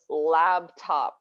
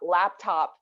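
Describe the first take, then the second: First: The first syllable ends with a b sound. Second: The first syllable ends with a p sound. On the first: The speaker calls it wrong. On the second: The speaker calls it right.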